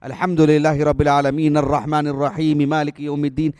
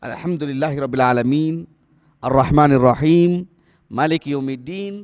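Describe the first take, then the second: First: The verses run together without pauses. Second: There is a pause after each verse. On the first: The speaker calls it wrong. "ऐसे नहीं पढ़ते थे" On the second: The speaker calls it right. "एक आयत पढ़ते तो उस पर आप आप वक्फ करते"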